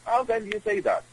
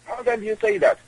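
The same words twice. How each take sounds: First: Said in the usual way. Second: Much higher, outraged disbelief; incredulous. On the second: Shown as a demonstration. Guest repeating the question to the host, in shocked high disbelief. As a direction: repeat it as if you can't believe it.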